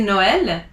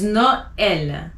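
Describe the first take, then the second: First: Noël said without emphasizing the E; mispronounced without tréma. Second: Noël with the E sounded as its own emphasized vowel; emphasized tréma E. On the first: Teacher showing the mistake to avoid, E unemphasized. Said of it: "because you don't wanna say". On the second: Teacher showing how the tréma works, emphasized E. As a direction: bring out the E in Noël. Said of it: "So you emphasize the E". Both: Shown as a demonstration.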